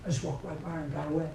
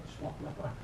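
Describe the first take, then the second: First: Said in the usual way. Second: Hushed whisper, barely voiced; whispered repeat. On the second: Shown as a demonstration. Preacher repeats line for effect.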